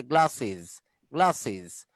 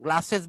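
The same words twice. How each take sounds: First: "গ্লাসেস" as "gla-siz"; foreign iz ending. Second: "গ্লাসেস" as Banglish "gla-ses"; Banglish ending. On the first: Teacher modelling how it's said abroad, গ্লাসেস as gla-siz. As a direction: close "গ্লাসেস" on short i and z. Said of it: "বিদেশে বলে". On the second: Teacher mimicking Banglish, গ্লাসেস ending in ses. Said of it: "বললে ব্যাংলিশ হবে". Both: Shown as a demonstration.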